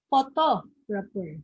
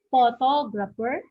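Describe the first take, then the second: First: PhoTOgrapher, stress on TO, slow; second-syllable stress. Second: PHOtographer, stress on the first syllable. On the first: Teacher giving the right option, stressing photographer on TO. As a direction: say photographer slowly with the weight on TO. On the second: Teacher quizzing students, stressing photographer on PHO. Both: Shown as a demonstration. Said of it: "the stress is on the second syllable".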